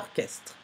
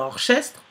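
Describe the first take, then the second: First: The ch is said as a k sound. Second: The ch is said as an sh sound. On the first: The speaker calls it right. "c'est orchestre" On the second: The speaker calls it wrong. "Est-ce que je peux dire orchestre? Non"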